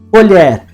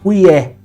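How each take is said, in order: First: The word has a palatal L and final R. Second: The word has a Y sound and no R. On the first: This is the standard pronunciation. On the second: This is the non-standard pronunciation.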